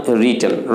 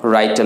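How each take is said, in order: First: "written" said as "ri-ten"; "written" starting like "rit", not "write"; correct written. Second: "written" said as "rai-ten"; "written" wrongly rhymed with "brighten"; mispronounced written. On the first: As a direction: say "written" with a short i in the first syllable. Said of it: "written বলবেন". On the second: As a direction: give "written" the vowel of "write". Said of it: "written নয়". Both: Shown as a demonstration.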